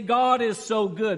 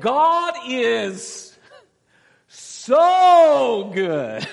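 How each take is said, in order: First: It is said calmly and plainly. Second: It is said with excited, fired-up energy, imitating Sister Judy Boer.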